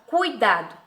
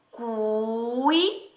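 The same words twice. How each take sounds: First: Said in the usual way. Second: "Cuidado" very slow, cut into cui, da, do with pauses; careful syllable-by-syllable. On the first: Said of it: "na primeira sílaba da palavra". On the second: Shown as a demonstration. Teacher having pupils count syllables, "Cuidado" pronounced syllable by syllable. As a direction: stretch each syllable of "Cuidado" on its own. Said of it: "Vamos pronunciar essa palavra com bastante atenção".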